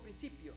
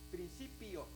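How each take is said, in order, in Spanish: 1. Se dice con pronunciación española. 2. Se dice con pronunciación hebrea. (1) "nosotros decimos principio" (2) "ellos dirían principio"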